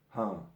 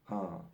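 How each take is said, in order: Both takes have the same delivery.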